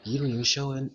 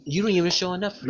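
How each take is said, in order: First: Said in the usual way. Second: "don't even show enough proof" rushed and raised; fast emphatic. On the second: Real, not acted. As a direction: hit "don't" and speed up.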